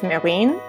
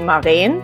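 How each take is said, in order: First: The name has an American English pronunciation. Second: The name has its native, non-American pronunciation. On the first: This is the version others usually use. "I'm used to the American version" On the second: This is the name's original pronunciation. "my actual pronunciation"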